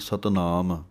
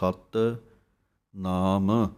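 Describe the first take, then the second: First: The two words are run together without a gap. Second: A small gap separates the words, first word firm. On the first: The speaker calls it wrong. "कई इकट्ठा पढ़ते हैं" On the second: The speaker calls it right. "थोड़ा जिहा space दे के बोलना है, सत कस के बोलना है"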